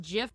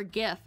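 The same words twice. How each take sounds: First: Gif with a soft g, like "jif". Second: Gif with a hard g, as in "gift". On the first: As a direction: start gif with a j sound. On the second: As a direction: start gif with the g of go. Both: Shown as a demonstration. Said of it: "is it pronounced gif or gif".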